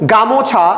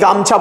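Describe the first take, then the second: First: The middle vowel is kept in the word. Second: The middle vowel is dropped from the word. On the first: "actually কথাটা হচ্ছে গা মোছা" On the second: "আমরা অনেকেই গামছা বলি"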